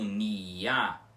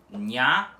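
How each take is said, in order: First: The i is long, a full separate vowel. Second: The i is short, a quick glide. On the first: The speaker calls it wrong. "com o i demorado, o i mais longo" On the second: The speaker calls it right. "tudo com o i semivogal rápido"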